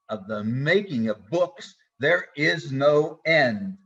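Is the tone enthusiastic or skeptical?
skeptical. It sounds weary and skeptical. Endless books are a tiresome burden. "It's saturated in the skepticism of Kohelet"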